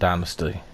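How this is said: It is said with an American pronunciation. "or if you're American"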